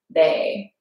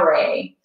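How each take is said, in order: First: The R is a quick tongue tap. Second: The R is a soft American-style R. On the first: The speaker calls it right. "we want to get that flick of the tongue to the top of the palate" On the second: The speaker calls it wrong. "if we were saying it in just like our like English American accents, we would say sa, re"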